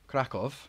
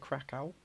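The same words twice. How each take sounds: First: Krakow is pronounced the local Polish way. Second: Krakow is pronounced the anglicized English way. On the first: The speaker calls it right. "I use the proper pronunciation" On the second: The speaker calls it wrong. "I don't say Krakow"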